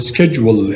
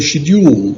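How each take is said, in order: First: It is said the American way. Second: It is said the British way.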